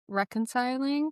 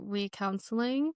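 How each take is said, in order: First: The word is said with its usual sounds. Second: The middle sounds like the word counsel. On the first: The speaker calls it right. "trying to pronounce reconciling" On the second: The speaker calls it wrong. "I pronounced it recounseling"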